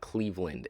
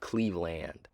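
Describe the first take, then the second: First: The word is mumbled and swallowed. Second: The word is articulated clearly and fully. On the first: The speaker calls it wrong. "It feels like I'm swallowing the word" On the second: The speaker calls it right. "instead of Cleveland"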